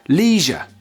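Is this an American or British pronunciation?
American. It is said with an American pronunciation. "In American English"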